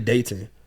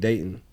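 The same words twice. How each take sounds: First: The T sound in the middle is clearly pronounced. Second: The T sound in the middle is dropped. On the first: This is how locals do not say it. "I don't say Dayton" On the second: This is how locals say it. "we don't even say T when we say Dayton"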